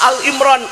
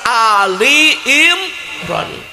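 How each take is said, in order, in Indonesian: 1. Kata pertama dibaca al pendek. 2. Kata pertama dibaca ali.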